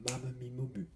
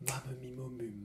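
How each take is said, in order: The two takes are said the same way.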